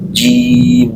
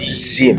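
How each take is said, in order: First: The syllable begins with a j sound. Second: The syllable begins with a z sound. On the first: The speaker calls it right. "Jim, jangan zim" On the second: The speaker calls it wrong. "jangan zim"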